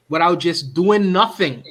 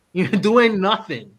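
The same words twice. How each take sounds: First: Said in the usual way. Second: Slow, laughing jab at doing nothing. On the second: Real, not acted. Host teasing the guest about doing nothing, laughing slowly.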